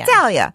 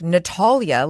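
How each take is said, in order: First: It is said with a Jersey-Italian accent. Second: It is said with a British accent.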